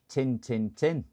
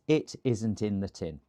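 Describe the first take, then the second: First: It is said in a Barnsley accent. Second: It is said in plain standard English.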